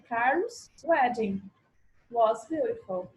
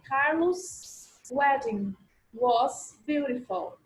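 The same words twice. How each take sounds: First: Carlos has no extra s syllable added. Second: Carlos is followed by an extra s syllable. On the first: The speaker calls it right. "na segunda forma" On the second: The speaker calls it wrong. "no inglês, a gente falaria assim"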